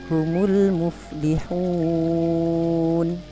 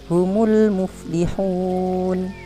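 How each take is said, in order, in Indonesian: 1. Vokal panjang ditahan selama empat ketukan. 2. Vokal panjang ditahan selama dua ketukan. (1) "yang kedua empat harokat" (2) "Bapak baca dua harokat"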